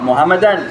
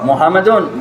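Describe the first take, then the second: First: The word ends in an. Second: The word ends in un.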